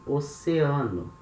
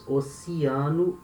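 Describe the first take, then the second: First: Oceano said "o-se-AH-noo"; oceano with an open e. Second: Oceano said "o-see-AH-noo"; oceano with an ee sound. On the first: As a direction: middle e of oceano as e. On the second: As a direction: middle e of oceano as ee. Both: Shown as a demonstration. Teacher contrasting two ways to say oceano. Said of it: "Notice the difference".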